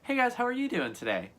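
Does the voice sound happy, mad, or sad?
happy. The voice sounds happy and cheerful.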